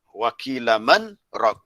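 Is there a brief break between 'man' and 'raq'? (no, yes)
yes. A brief break separates man from raq.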